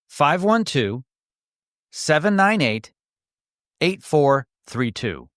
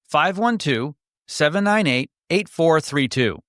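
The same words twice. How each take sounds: First: The number is read more slowly. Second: The number is read at normal speed.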